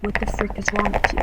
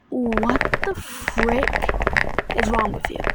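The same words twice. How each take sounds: First: Said in the usual way. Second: Drawn-out, slow "what the frick"; slow, incredulous retort; indignant retort. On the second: Retold or imitated. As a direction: stretch it out slowly in disbelief. Retold indignant comeback to friend's insult.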